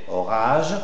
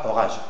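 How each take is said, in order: First: The stressed vowel is drawn out long. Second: The stressed vowel is short and clipped. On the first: The speaker calls it right. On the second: The speaker calls it wrong. "c'est pas orage"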